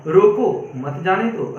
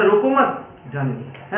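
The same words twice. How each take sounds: First: Slow, रोको set apart from मत जाने दो; pause after रोको. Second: Slow, रोको मत joined, then जाने दो; pause after मत. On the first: Teacher recalling the first sentence, pause after रोको. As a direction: break after रोको, then run मत जाने दो together. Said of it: "एक कॉमा का प्रयोग होते हुए". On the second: Teacher giving the second sentence, pause after मत. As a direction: break after मत, before जाने दो. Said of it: "और दूसरा बोला". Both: Shown as a demonstration.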